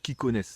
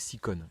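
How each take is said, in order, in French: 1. Le nom commence par le son k. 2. Le nom commence par le son s. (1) "à la grecque" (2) "à la française"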